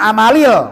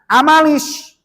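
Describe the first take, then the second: First: The word ends with an l sound. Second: The word ends with an s sound. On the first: The speaker calls it wrong. "Tidak dibaca amalil" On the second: The speaker calls it right. "malah dibaca amalis"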